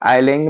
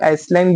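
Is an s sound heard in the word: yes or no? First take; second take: no; yes. First: The word is said without an s sound. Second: The word is said with an s sound. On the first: The speaker calls it right. "आइलैंड में एस silent होता है" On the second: The speaker calls it wrong. "इसका भी pronunciation कुछ एस जैसा हो"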